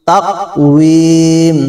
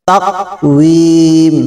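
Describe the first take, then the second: No difference in how they are said.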